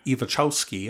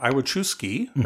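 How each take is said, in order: First: The name is said with its original pronunciation. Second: The name is said with an English-style pronunciation. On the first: This is the name's original form before adaptation. The speaker calls it right. "I later found out was the correct way of saying it" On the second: This is the family's adapted version of the name. The speaker calls it wrong. "He had anglicized it"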